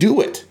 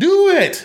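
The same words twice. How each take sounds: First: It is said calmly at normal loudness. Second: It is shouted very loudly and intensely.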